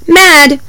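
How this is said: The sounds are blended quickly into one word. "say it the fast way"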